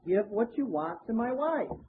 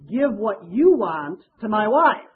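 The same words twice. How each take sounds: First: The word 'you' is not given special stress. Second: The word 'you' is given strong stress. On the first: The speaker may choose what to give. The speaker calls it wrong. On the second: The share the speaker wants goes to the wife. The speaker calls it right.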